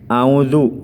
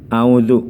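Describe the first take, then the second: Both takes have the same delivery.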